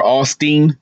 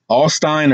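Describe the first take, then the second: First: Second try at "Alstein", ending like "steen"; alternative name pronunciation. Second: First try at "Alstein", ending like "stine"; unsure name pronunciation. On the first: Vlogger offering another guess at the last name, "Alstein" ending in "steen". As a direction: say "Alstein" with a long e, rhyming with "seen". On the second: Vlogger guessing at a board member's last name, "Alstein" ending in "stine". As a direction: say "Alstein" with a long i, rhyming with "fine". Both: Shown as a demonstration. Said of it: "I don't know how to say his last name".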